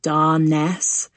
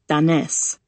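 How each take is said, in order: First: The name is stretched and drawn out. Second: The name is said short, not stretched. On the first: An outsider says the name. "He stretches my name so it sounds like" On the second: Family members say the name. "the way my firekeeper relatives say it"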